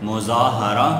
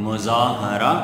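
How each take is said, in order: The two takes are said the same way.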